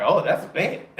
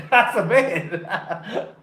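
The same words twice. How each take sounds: First: Said in the usual way. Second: Slow, laughing through "That's a bet"; laughing repeat. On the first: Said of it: "I'm like". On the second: Real, not acted. Repeats his own punchline to viewers, laughing. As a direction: savor the line while cracking up.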